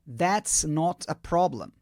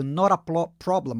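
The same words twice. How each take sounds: First: That's not a problem, said slowly and clearly; slow model phrase. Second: Fast. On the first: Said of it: "a primeira opção é". (devagar e bem articulado) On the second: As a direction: rattle off "Not a problem" quickly. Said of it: "Você pode até falar rápido". (rápido e corrido) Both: Shown as a demonstration.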